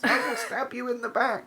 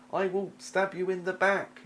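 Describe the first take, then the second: First: Much higher hammed-up sneaky rogue; over-the-top sly rogue threat. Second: High, slow sneaky rogue threat; sly rogue promising a backstab. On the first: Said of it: "that's my rogue voice". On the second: Acted. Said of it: "in a rogue voice".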